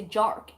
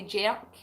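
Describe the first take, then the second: First: "jerk" with a smooth "ur" vowel; "jerk" pronounced as "jurk"; non-Scottish pronunciation. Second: "jerk" with an open "air" vowel and Scottish r; Scottish "jerk", sounded "jairk"; natural Scottish pronunciation. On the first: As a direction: say "jerk" as a non-Scot would, one rounded vowel. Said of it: "in my natural accent I wouldn't say". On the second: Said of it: "I would say jerk". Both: Shown as a demonstration.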